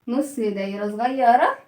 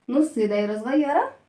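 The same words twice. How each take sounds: The two takes are said the same way.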